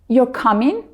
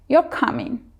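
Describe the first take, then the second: First: The pitch rises at the end. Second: The pitch falls at the end. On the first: It asks a yes-no question. "your voice goes up at the end" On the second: It makes a statement. "your voice goes down at the end"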